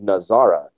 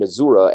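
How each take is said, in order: First: The name has a Hebrew-style vowel sound. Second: The name has a Yiddish-influenced vowel sound. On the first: The speaker said it this way. The speaker calls it right. "I was saying Nazara" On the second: Someone else said it this way. The speaker calls it wrong. "he was saying Nazura"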